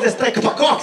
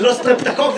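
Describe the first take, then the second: First: Mock the wrong סטרפפקוק; mispronounced word. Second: Said in the usual way. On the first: Shown as a demonstration. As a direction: say סטרפפקוק with a p where the t belongs.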